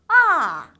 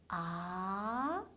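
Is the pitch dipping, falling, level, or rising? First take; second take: falling; rising. First: The pitch slides sharply down from high. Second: The pitch rises clearly from low to high. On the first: "떨어지는 음이에요. 쭉 미끄러져야 돼요" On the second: "아래에서 위로 올라가는 게 확실한 음이에요"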